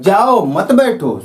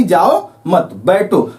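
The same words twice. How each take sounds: First: Drawn-out "जाओ", then "मत बैठो" run together, falling; break after जाओ. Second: "जाओ मत" held together, a break, then "बैठो"; slowly, group मत with जाओ, then say बैठो apart; pause after मत. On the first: Listener hears go, don't sit, break after जाओ. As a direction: slowly, set जाओ apart and join मत to बैठो. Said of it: "श्रोता को क्या लगता है". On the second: Speaker means don't go but sit, break after मत. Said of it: "यहाँ एक पहला अर्थ है". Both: Shown as a demonstration.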